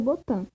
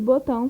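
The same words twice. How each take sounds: First: The word ends with a plain 'an' sound. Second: The word ends with a nasal 'ão' diphthong. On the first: "fica botão; substituíram pelo an" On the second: "botão fica"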